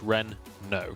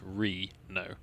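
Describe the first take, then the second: First: The N closes the first syllable. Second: The N starts the second syllable. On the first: The name is spelled with a double N. "if it's a double N, then it's Renault because it's Ren no" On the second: The name is spelled with a single N. "If it's a single N, then it's Re no"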